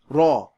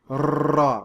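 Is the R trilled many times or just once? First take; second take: Once; Many. First: The R is trilled with a single roll. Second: The R is trilled with many rolls. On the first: The speaker calls it right. "but with just one roll" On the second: The speaker calls it wrong. "Notice I'm not rolling excessively like raw"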